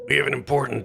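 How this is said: It is said in a put-on imitated character voice.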